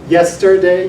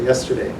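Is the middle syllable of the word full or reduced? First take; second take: full; reduced. First: The middle syllable has a full vowel. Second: The middle syllable is a reduced schwa. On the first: It sounds like very slow speech. "you could if you're speaking very slowly" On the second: It sounds like normal-speed speech. "you just say yesterday"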